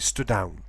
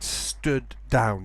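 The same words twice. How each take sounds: First: The two d sounds merge into one. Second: Both d sounds are pronounced separately. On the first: The speaker calls it wrong. "You don't say" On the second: The speaker calls it right. "You say it"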